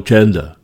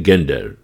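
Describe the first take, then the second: First: It begins with a soft 'j' sound, English style. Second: It begins with a hard 'g', as written. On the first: "anglické slovo gender" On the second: "budu to vyslovovat tak, jak se to píše"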